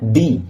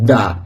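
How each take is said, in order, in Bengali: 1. শব্দটি দীর্ঘ 'ee' স্বরধ্বনি দিয়ে শেষ হয়। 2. শব্দটি হ্রস্ব 'uh' স্বরধ্বনি দিয়ে শেষ হয়। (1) "যদি ভাইওয়েল সাউন্ডের আগে ... টি এইচ ই এর উচ্চারণ হয় কি না" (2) "যদি কনসোনেন্ট সাউন্ডের আগে এই ওয়ার্ডটি থাকে তাহলে এর উচ্চারণ হবে দা।"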